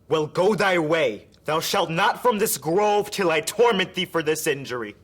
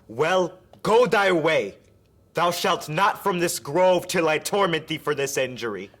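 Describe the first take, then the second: First: It flows on intensely with no pause. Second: There is a big pause inside the line.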